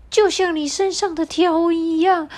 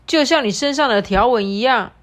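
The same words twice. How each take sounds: First: Much higher, pushy parrot. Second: Loud, pushy demand; bossy animal voice. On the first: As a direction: squawk the demand up high. Parrot demands a decision. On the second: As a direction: press the zebra for an answer. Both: Acted.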